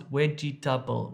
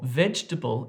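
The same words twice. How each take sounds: First: It is said with a Dravidian-influenced pronunciation. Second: It is said in a standard English way. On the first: "becomes vegetable" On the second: "vegetable in English"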